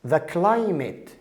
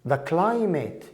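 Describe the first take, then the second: Both takes have the same delivery.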